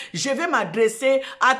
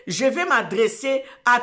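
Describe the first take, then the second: No difference in how they are said.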